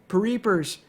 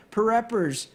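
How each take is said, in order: First: Pereepers with a long ee, pa-REE-pers; trying Pereepers instead, REE stretched; second try at the name. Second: Pereppers with a short e, pa-REP-pers; Pereppers, stress on REP, falling; unsure Pereppers, pa-REP-pers; first try at the name. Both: Shown as a demonstration. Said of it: "however you pronounce it".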